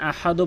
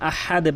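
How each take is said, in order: First: The final d is followed by an 'o' vowel. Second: The final d ends with a short light bounce. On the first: The speaker calls it wrong. "এখানে আহাদও বলবেন না" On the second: The speaker calls it right. "আহাদে বলতে হবে"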